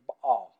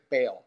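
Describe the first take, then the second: First: Baal said low with a throaty catch; Hebrew Baal. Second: Said in the usual way. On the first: Shown as a demonstration. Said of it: "In Hebrew". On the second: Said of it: "So we say in English".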